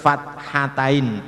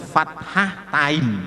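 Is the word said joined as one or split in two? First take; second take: joined; split. First: It is one joined word without the h. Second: It is split in two, keeping the h. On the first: The speaker calls it right. "Harus fathatain, tak hanya dihilangkan" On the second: The speaker calls it wrong. "nah itu salah"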